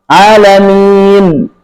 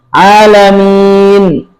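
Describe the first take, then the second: No difference in how they are said.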